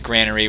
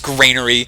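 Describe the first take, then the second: First: The first syllable sounds like 'gran'. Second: The first syllable sounds like 'grain'. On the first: "maybe that's how like standard English pronounces it" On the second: "granaries hold grain, and thus stated it is Granary"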